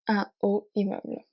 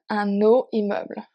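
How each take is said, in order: First: No n sound links un to haut. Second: An n sound links un to haut. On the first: The speaker calls it right. "You do not make a liaison" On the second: The speaker calls it wrong. "so not"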